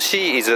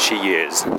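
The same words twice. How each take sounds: First: Said the Japanese way, with no glide between words. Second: Said from the throat, with a y-glide into is. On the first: "日本語的に言うと" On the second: "喉で言うとShe is、She is というふうにY が生じる"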